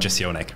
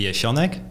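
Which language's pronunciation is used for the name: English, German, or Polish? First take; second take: English; Polish. First: The name is said with an English pronunciation. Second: The name is said with a Polish pronunciation. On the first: "I usually just go by the English one" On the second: "the Polish pronunciation would be"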